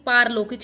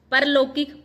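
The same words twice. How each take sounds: First: Long aa in पारलौकिक; correct form. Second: Short first vowel in परलौकिक; wrong form. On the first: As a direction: open पारलौकिक on paar-. (सही उच्चारण, पारलौकिक) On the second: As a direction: open परलौकिक on par-. (गलत उच्चारण, परलौकिक) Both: Shown as a demonstration. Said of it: "पारलौकिक शुद्ध शब्द है".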